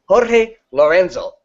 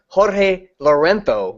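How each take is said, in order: First: The z in Lorenzo is a plain s. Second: The z in Lorenzo is lisped like th. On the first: It avoids repeating an old speech error. "the reason I say Lorenzo is because a lisp is a an error of speech" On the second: It follows the Castilian lisp some announcers use. "always says Jorge Lorenzo with the with the uh, the Catalan list or the Barcelona list"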